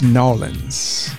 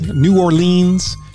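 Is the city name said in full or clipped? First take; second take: clipped; full. First: The name is clipped the local Southern way. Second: The name is said in full, three syllables.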